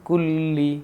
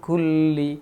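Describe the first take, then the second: No difference in how they are said.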